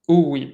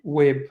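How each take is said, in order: First: It begins with an extra vowel before W. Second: It begins directly with a W sound. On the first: This is how it is said in church. The speaker calls it wrong. "not uweeb. So not not how we would say it in church" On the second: This is the proper Egyptian-style pronunciation. The speaker calls it right. "this is like a W"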